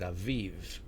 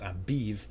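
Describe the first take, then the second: First: The middle consonant is a V sound. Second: The middle consonant is a B sound. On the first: The speaker calls it right. "but aviv" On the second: The speaker calls it wrong. "not abiv"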